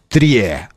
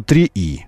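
First: The final letter sounds like 'yeh'. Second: The final letter sounds like 'ee'. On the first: The letter is read as Cyrillic. "Если как кириллицу" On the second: The letter is read as Latin. "Как латиницу"

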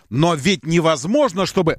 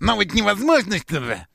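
First: It is said in a normal voice. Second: It is said in a squeaky, mocking voice.

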